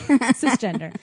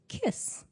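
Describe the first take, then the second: First: The first sound is a soft S sound. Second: The first sound is a hard K sound. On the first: This is the usual English pronunciation. The speaker calls it right. "in American we say cisgender" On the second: This follows the original Latin pronunciation. The speaker calls it wrong. "the proper uh, Latin pronunciation is kiss. You like pronounce the hard C"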